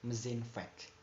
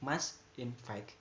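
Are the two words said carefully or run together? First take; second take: run together; careful. First: The words are run together into one reduced form. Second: Both words are said fully and separately. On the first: "In a rapid speech, ... becomes mesinfect" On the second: "from must infect"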